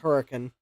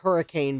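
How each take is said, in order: First: The name is said the local way. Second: The name is said the usual, spelled way. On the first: This is how locals say the name. "but it's hurricane" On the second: This is how the name looks written. "I know it looks like hurricane"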